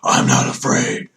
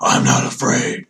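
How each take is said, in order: First: It is said in a put-on Batman voice. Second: The same.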